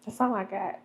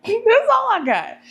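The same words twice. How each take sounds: First: Said in the usual way. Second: High laughing repeat, slowed down. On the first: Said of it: "said again differently". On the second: Shown as a demonstration. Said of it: "repeated with laugh".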